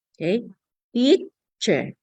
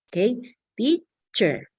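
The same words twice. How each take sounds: The two takes are said the same way.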